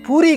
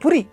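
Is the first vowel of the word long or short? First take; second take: long; short. First: The first vowel is long, like the snack. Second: The first vowel is short, unlike the snack. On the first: The speaker calls it wrong. "ఇడ్లీ వడ పూరి లాగా. అది పూరి కాదు" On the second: The speaker calls it right. "అది పురి అనాలి అందరూ కూడా తప్పనిసరి"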